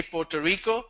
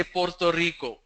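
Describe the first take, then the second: First: Puerto Rico as "potuh reeko", soft English r; standard pronunciation. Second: Puerto Rico as "porto reeko", r sounded; South American pronunciation. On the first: Teacher showing everywhere else's Puerto Rico, standard English r. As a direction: drop the first r in Puerto Rico. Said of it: "it's pronounced everywhere else". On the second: Teacher contrasting South America's Puerto Rico, crisp tapped r. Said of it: "is not pronounced as Puerto Rico in South America". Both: Shown as a demonstration.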